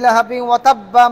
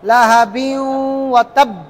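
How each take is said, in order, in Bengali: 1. b-এর পরে একটা স্বর নিয়ে এটা চলতে থাকে। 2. এটা হঠাৎ থেমে যায়, ধাক্কা দেওয়া b-তে, কোনো স্বর নেই। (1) "আর যদি একসাথে পড়ে যান" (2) "বাইরের মধ্যে একটা ধাক্কা লেগে থেমে যাবেন"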